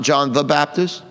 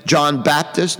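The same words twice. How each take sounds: First: "the" picked out slowly between "John" and "Baptist"; slow down and point up the word "the"; stress on THE. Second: "John Baptist" as two names, stress on "Baptist". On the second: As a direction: say "John Baptist" with no article, landing on "Baptist". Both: Shown as a demonstration. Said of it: "not John the Baptist".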